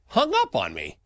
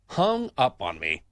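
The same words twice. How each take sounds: First: Said in the usual way. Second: "Hung up on me" said slowly, each word spaced, stress on "Hung"; slow indignant repeat. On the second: Real, not acted. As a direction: repeat it slowly to let the outrage land.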